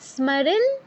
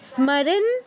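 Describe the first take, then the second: No difference in how they are said.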